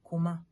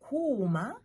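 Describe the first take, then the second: First: Kuma with a quick, short u; Kuma, vowel not drawn out. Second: Kuma with a long, drawn-out u; kuma, lengthened first vowel. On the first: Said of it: "are not long". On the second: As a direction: stretch the u in kuma before "ma". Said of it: "to have some long vowels". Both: Shown as a demonstration.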